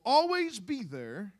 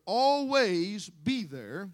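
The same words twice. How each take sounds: First: Said in the usual way. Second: "always" drawn out long and loud; stress on ALWAYS. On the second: Shown as a demonstration. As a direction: stretch the word "always" slowly and push it louder. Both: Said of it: "I'm gonna stress that word".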